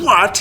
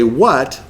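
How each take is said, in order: First: Sharp, higher irritated "What?"; annoyed snap. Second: Said in the usual way. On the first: Retold or imitated. Husband snapping at wife who interrupts him, sharply. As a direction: snap the word "What?" out, put out. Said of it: "was the old arrow". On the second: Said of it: "as I'm breathing in to say".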